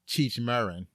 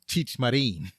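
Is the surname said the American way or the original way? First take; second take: American; original. First: The surname is said with a common American pronunciation. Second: The surname is said with its original pronunciation. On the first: This is how people in America usually say it. The speaker calls it wrong. "We always called him Cheech Marin" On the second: This is how the name is really pronounced. The speaker calls it right. "his name is actually pronounced Cheech Marin"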